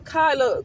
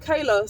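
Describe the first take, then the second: First: The first vowel sounds like 'eye'. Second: The first vowel sounds like 'ay'. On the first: The speaker calls it wrong. "see how I call her Kyla?" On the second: The speaker calls it right. "I know her name is Kayla"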